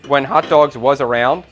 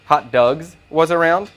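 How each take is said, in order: First: Said in the usual way. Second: "Dogs" said as "Dugs", slow and careful; clarified name. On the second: Real, not acted. Chef clarifying a restaurant name, "Dogs" pronounced "Dugs".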